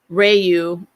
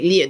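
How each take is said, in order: First: It begins with an English-style R sound. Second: It begins with a sound close to an L. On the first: This is how people commonly say it in America. The speaker calls it wrong. "Ryu is how I hear it most" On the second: This is the Japanese way to say it. The speaker calls it right. "it should be Liu, like Liu"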